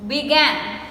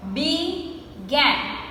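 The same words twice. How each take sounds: First: Said in the usual way. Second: "Began" split as bee... gan; two separated beats on "Began"; slowly broken up. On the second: Shown as a demonstration. Teacher counting two syllables, "Began" slowly broken up. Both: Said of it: "we say it slowly and we break the word".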